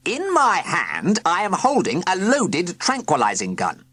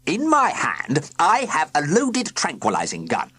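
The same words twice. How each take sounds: First: Stern villain trying again. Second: Stern villain. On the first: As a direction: drag it out to be heard. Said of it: "Sir Quincy tried again". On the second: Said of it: "began Sir Quincy sternly". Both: A narrator's reading.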